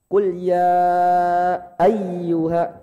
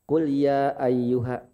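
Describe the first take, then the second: First: The double y sound is pressed and held. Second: The y sound is flat, without extra pressure. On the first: The speaker calls it right. "Harus ada tekanan" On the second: The speaker calls it wrong. "Jadi enggak datar, enggak monoton"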